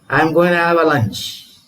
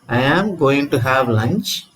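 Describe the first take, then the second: First: The words are run together fast and reduced. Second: Each word is said separately and fully. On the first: "when you hear the same sentence spoken by a native speaker, how does it sound?" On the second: "That's the sentence"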